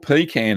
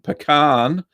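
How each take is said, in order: First: It is pronounced in the Australian way. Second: It is pronounced in a non-Australian way.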